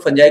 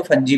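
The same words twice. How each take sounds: First: "फंजाई" with the last syllable rhyming with "eye"; "फंजाई" pronunciation. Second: "फंजी" with the last syllable rhyming with "see"; "फंजी" pronunciation. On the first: Teacher showing students one accepted variant, "फंजाई" ending in -jai. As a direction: say "फंजाई" ending in a long "aa-ee" glide, fun-JAI. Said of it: "pronunciation है". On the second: Teacher showing students how some people say it, "फंजी" ending in -jee. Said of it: "कुछ लोग ... फंजी भी कहते हैं". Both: Shown as a demonstration.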